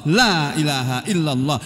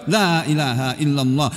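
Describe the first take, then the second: No difference in how they are said.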